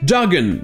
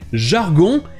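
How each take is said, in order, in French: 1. Il se prononce avec des sons anglais. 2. Il se prononce avec des sons français. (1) "sa prononciation en anglais jargon" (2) "le mot en français jargon"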